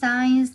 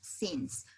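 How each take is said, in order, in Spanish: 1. La vocal suena como 'eye', como en science. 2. La vocal es corta, rima con 'sins'. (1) "No es science" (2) "la pronunciación de la palabra es since"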